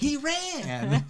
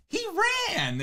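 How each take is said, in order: First: Squeaky, high-pitched imitation; high-pitched squeak. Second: Mock high, excited shout; high-pitched yell. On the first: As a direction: jump way up in pitch for it. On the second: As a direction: raise the voice way up. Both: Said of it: "raises his voice really high".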